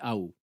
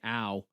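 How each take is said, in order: First: The diphthong is short, with a clipped tail. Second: The diphthong is long, with a full tail. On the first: This is the Canadian way. "certain diphthongs are really shortened on the tail end" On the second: This is the non-Canadian way. "instead of saying ow"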